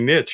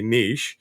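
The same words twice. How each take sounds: First: It is said the American way. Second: It is said the European and Canadian way.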